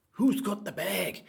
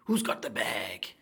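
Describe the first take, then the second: First: Higher, louder and slow chant; called out high. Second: Slow breathy whisper of the line; hushed, drawn-out question. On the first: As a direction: call it out to the crowd, drawn out. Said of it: "repeat in higher voice". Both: Shown as a demonstration.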